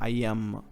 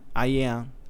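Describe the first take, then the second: First: The final M sound is clearly heard. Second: The final M sound is weak or unclear. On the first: The speaker calls it right. "percebe o som de M no final" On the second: The speaker calls it wrong. "ele não fala I am"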